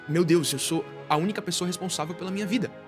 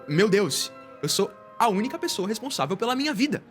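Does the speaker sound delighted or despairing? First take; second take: despairing; delighted. First: The voice sounds anxious and despairing. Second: The voice sounds amazed and delighted. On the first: Being solely responsible feels overwhelming. "Isso é desesperador" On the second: Being solely responsible feels empowering. "com uma outra intenção. Uau, isso é incrível!"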